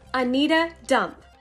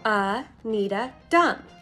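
First: The name is said at normal speed. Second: The name is said very slowly.

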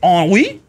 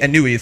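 First: The word has a French-style pronunciation. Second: The word has an English-style pronunciation. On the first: "Is it French or something?" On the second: "I say Anui for that one"

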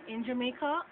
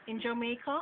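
The two takes are said the same way.

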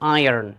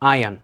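First: The r sound is clearly pronounced. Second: The r sound is left out. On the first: "যদি আপনি American accent follow করেন তাহলে আপনাকে আর এর উচ্চারণটা খুব ভালোভাবে করতে হবে" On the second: "আর যদি ব্রিটিশ অ্যাকসেন্ট ফলো করেন তাহলে আপনি বলতে হবে আয়ন"

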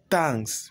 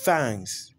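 First: It begins with a sound other than th. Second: It begins with a voiceless th sound. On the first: The speaker calls it wrong. "Ce n'est pas thanks" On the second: The speaker calls it right. "mais c'est thanks. Avec ce symbole-ci"

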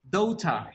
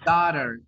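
First: It is said in a British accent. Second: It is said in an American accent. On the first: "But in Británico is daughter" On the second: "in American pronunciation is daughter"

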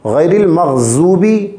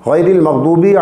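First: The middle consonant sounds like a z. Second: The middle consonant sounds like a heavy d. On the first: The speaker calls it wrong. "हरगिज़ हरगिज़ नहीं पढ़ना चाहिए" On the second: The speaker calls it right. "दुआत को उसके मखरज से अदा करना चाहिए"

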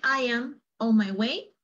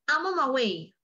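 First: Each word is said separately, with no contraction. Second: The words are run together with a contraction. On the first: The speaker calls it wrong. "para no decir I am on my way" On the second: The speaker calls it right. "Junta todo"

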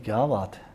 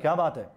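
First: It is said warmly, as an admiring exclamation. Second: It is said sharply, with a stern scolding tone. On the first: The speaker is praising something. "ये तारीफ हो गई" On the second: The speaker is rebuking someone. "डांट कर कहा"

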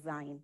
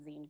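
First: It does not sound like 'magazine' ends. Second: It sounds like the end of 'magazine'. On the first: The speaker calls it wrong. "as opposed to a zine" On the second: The speaker calls it right. "that's where the word zine also comes from, and also the pronunciation zine comes from"

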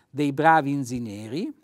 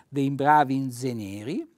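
Both takes have the same delivery.

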